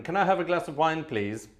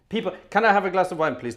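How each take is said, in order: First: Said in the usual way. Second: Louder and quicker plea for wine; louder, faster plea. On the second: Shown as a demonstration. Host begging viewers for wine, louder and faster. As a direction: push the request harder and faster.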